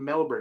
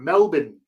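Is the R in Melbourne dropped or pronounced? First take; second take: pronounced; dropped. First: An American accent, with the R pronounced. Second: A put-on Australian accent, with the R dropped. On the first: The speaker is American and does not fake an accent. The speaker calls it right. "if you're American, you say fucking Melbourne" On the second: The speaker imitates the local accent. The speaker calls it wrong. "You don't insult the accent by going Melbourne"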